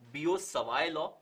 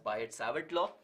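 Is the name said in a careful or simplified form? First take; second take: careful; simplified. First: The name is said in its careful original form. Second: The name is said in a simplified everyday form. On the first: "the correct pronunciation for this is" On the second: "you can say it as"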